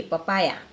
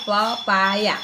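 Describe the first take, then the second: First: Said in the usual way. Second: "પપાયા" slowly, syllable by syllable, louder; ઉચ્ચાર દર્શાવતું. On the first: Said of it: "ઉચ્ચાર એનો પપાયા". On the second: Shown as a demonstration. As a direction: stretch out "પપાયા" to teach its sounds. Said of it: "શું બોલાય? ઉચ્ચાર એનો". ("પપાયા" છૂટું પાડીને ધીમે બોલો)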